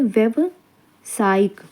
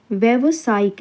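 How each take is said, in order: First: व्यावसायिक very slowly, a gap before सायिक; slow, broken up. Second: Said in the usual way. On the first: Shown as a demonstration. Teacher asks for close attention, slow and broken up. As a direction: split व्यावसायिक into two careful parts. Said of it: "इसको ध्यान से देखिए".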